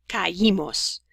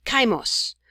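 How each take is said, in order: First: "Caímos" as ca-Í-mos, three syllables, stress on the í; accented í, separated. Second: "caimos" as KAI-mos, ai in one stressed syllable; unaccented diphthong. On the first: Teacher shows why the I needs an accent mark, "Caímos" said ca-Í-mos. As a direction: keep ca and í apart in "Caímos", leaning on the í. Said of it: "we need this I with an accent mark". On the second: Teacher shows learners the form without the accent, "caimos" merged into KAI-mos. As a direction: glide ca and i together in "caimos", two syllables only. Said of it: "if we didn't have it".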